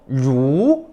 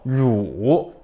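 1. 중간에서 높은 쪽으로 올라가요. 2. 낮게 내려갔다가 다시 올라가요. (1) "이성" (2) "삼성"

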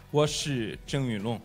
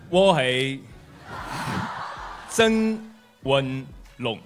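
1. 是用青岛话说的。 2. 是用粤语说的。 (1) "纯正的青岛小哥话" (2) "用粤语来跟大家打招呼"

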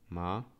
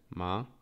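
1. Wysokość najpierw opada, a potem rośnie. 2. Wysokość najpierw opada, a potem rośnie.

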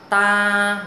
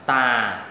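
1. Giọng đọc ngang, không cao cũng không thấp. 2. Giọng thấp và hạ nhẹ. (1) "đọc ngang ngang ha. Ta là không lên giọng cũng không xuống thấp" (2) "Thanh 3 đọc giống như dấu huyền của tiếng Việt"

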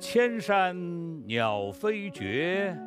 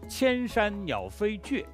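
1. 最后一个音节拖长、开口。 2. 最后一个音节短促、戛然而止。

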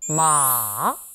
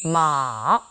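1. 천천히 길게 내려가요. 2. 천천히 길게 내려가요.

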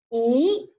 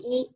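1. 音高从中到高上升。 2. 音高保持高而平。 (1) "二声的时候向上扬，读一啊一" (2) "它读在一声的时候，它读一啊"

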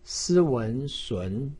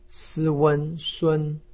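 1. 音高从中升到高。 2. 音高保持高而平。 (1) "二声" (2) "一声"

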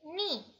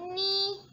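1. Nadanya turun tajam dari tinggi ke rendah. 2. Nadanya tetap tinggi dan datar.

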